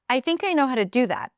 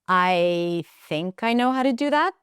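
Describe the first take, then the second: First: The pitch falls at the end. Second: The pitch rises at the end. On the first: The speaker is certain and confident. "Fall, rising, falling at the end" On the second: The speaker is unsure and doubting themselves. "that rising, rising intonation means that I'm kind of doubting myself"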